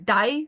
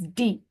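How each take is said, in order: First: The vowel sounds like 'eye', as in English. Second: The vowel is a long 'ee'. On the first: The speaker calls it wrong. "you never pronounce it as die like English" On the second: The speaker calls it right. "It's D"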